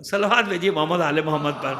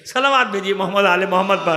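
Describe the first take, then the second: First: Loud call to the congregation; calling out for salawat. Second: Louder call to the congregation; loud salawat call. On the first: Preacher calls the gathering to send salawat, loud call. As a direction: raise the call for blessings. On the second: Preacher rouses the gathering to salawat, loud call. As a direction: call out the blessing. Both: Real, not acted.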